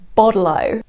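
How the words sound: The T is said like a soft D.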